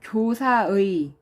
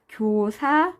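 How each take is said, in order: First: The final syllable's vowel sounds like 'ui'. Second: The final syllable's vowel sounds like 'e'. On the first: "그대로 의로 발음하는 게 원칙이에요" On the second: "교사에 이렇게 발음하는 것도 허용을 해줍니다"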